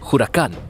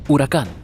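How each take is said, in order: First: The word begins with a breathy h sound. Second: The word begins directly with a vowel. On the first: "huracán con J" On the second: "con una H silenciosa"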